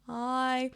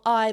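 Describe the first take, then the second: First: The vowel starts smoothly without any catch. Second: The vowel starts with a sharp glottal catch. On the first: "or smooth" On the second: "I being a glottal"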